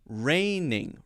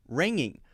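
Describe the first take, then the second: First: A tongue-tip nasal comes first, then a tongue-back nasal. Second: Both nasal sounds are made with the tongue back. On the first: The speaker calls it right. "It's got to be first the N sound, then the N G sound" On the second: The speaker calls it wrong. "ringing would be using the ing sound or the N G sound twice"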